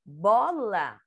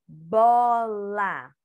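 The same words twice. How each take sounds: First: Said in the usual way. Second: BOLA drawn out as BO-LA, full final A; syllable-by-syllable reading. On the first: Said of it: "Isso, bola". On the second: Shown as a demonstration. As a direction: sound out Bola in two long syllables. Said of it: "Vamos ver a palavrinha bola".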